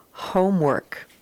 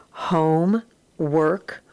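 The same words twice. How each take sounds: First: Said in the usual way. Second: Home and work said as two separate slow words; syllable by syllable. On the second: Shown as a demonstration. Teacher sounding out a compound word for the class, split slow. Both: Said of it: "read across and then put together".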